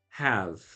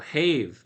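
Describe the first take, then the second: First: The vowel is the short vowel of 'hat'. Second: The vowel is the long vowel of 'cave'.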